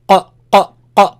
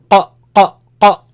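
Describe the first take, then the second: No difference in how they are said.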